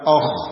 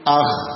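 First: The lips are pushed forward, giving a rounded vowel. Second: The lips stay normal, giving an open vowel. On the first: The speaker calls it wrong. "bukan oh" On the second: The speaker calls it right. "tapi ah"

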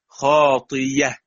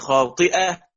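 First: The middle consonant is a y sound. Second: The middle consonant is a glottal stop.

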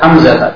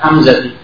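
First: The name ends with an a vowel. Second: The name ends with an i vowel. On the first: The speaker calls it right. "Kitab Hamzah" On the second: The speaker calls it wrong. "bukan Hamzah"

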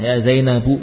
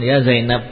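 First: The name ends with a short u vowel. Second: The name ends on a bare consonant. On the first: This is the full form that applies the grammar rule. "Jarang kita menyempurnakan dengan harokatnya" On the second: This is the usual form in everyday dialogue. "Berdialog dalam wakilnya memang akan disukun ya Zainab"

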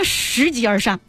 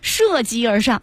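First: The first syllable is pronounced shí. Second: The first syllable is pronounced shè. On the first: The speaker calls it wrong. "什么拾级而上啊，你这是硬伤" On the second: The speaker calls it right. "应该读涉级而上"

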